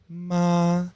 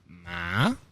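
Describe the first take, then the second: First: The pitch stays level and flat. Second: The pitch rises toward the end. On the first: "First one is a straight ma" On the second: "It's a rising tone"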